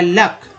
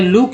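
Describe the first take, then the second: First: The vowel is a short 'uh' sound. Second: The vowel is an 'oo' sound. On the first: The speaker calls it wrong. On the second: The speaker calls it right.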